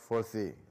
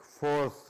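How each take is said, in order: First: It is two syllables with a final vowel. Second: It is one syllable ending in an s sound. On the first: The speaker calls it wrong. "not foresee" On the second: The speaker calls it right. "normally like force"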